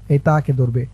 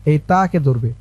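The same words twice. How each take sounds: The two takes are said the same way.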